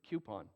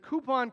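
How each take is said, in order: First: The first syllable is 'kyoo', like the letter Q. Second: The first syllable is 'koo' with no y sound. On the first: "I usually say cu- coupon, which is a Q" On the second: "I said it right just for you"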